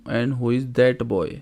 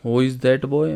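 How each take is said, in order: First: Slow careful translation for students; slow dictation pace; slow and clear. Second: Said in the usual way. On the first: Shown as a demonstration. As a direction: spell it out slowly for a class. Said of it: "slow translation for students". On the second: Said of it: "translation at normal pace".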